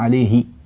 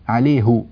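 First: The final ha is said with an i vowel. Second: The final ha is said with a u vowel. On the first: This is the form Sudanese speakers do not use. "ولا يقولون عليه" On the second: This is how Sudanese speakers say it today. "نسمع إلى اليوم السودانيين يقولون عليه، عليه ... يضمون الهاء"

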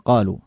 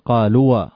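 First: The final marked letter is left silent. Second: The final marked letter is pronounced aloud. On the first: The speaker calls it right. "وإنما قالوا" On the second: The speaker calls it wrong. "ولا تقول قالوا"

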